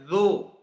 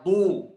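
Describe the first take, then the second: First: The consonant is a buzzing z sound. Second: The consonant is a heavy d sound. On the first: The speaker calls it wrong. "jangan dibaca zu" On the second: The speaker calls it right. "Dad dibaca du"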